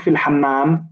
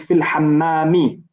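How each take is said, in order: First: The last word ends without a final vowel. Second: The last word ends with a final i vowel. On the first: The speaker calls it wrong. "we we don't say fil hammam" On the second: The speaker calls it right. "We'll say fil hammami"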